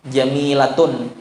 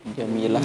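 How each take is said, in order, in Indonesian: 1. Kata itu berakhir dengan akhiran -tun yang penuh. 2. Kata itu berakhir lembut dengan bunyi h.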